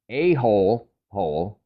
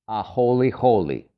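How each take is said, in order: First: Each 'hole' part has one syllable, like 'hole'. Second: Each 'hole' part has two syllables, like 'holy'. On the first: The speaker calls it wrong. "if you read it as a hole hole, well, think again" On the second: The speaker calls it right. "it's actually pronounced a holy holy"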